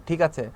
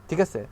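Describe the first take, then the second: Both takes have the same delivery.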